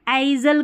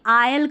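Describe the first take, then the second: First: An s sound is pronounced before the l. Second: No s sound is pronounced before the l. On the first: The speaker calls it wrong. "आइजल करके पढ़ दिया, नहीं" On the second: The speaker calls it right. "आयल करके पढ़ेंगे"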